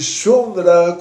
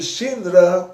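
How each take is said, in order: First: The first vowel is an 'oo' sound. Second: The first vowel is an 'ee' sound. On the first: "com U" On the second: "com I"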